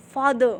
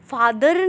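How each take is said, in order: First: फादर said as fadə, with the final r kept in; फादर ending on ə and no r sound; correct way. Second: फादर said with a final r, like fadər; फादर ending on a clear r sound; wrong way. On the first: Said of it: "pronunciation में फादर बोला जाता है". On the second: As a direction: sound the r at the end of फादर, as the mistake. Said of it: "फादर नहीं होता है". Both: Shown as a demonstration.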